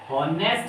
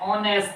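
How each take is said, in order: First: The word begins with an h sound. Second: The word begins directly with a vowel. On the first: The speaker calls it wrong. "हॉनेस्ट नहीं होता बच्चों" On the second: The speaker calls it right. "ऑनेस्ट होता है"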